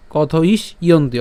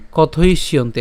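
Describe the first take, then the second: First: কথ ইস ইয়ন্তি split as "kotho-is, iyonti"; broken into parts. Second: কথ ইষ্যন্তি run together as "kothoishyonti"; joined together. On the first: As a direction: pause after "is" in কথ ইস ইয়ন্তি. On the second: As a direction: link sh into "yonti" in কথ ইষ্যন্তি. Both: Shown as a demonstration. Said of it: "একসাথে".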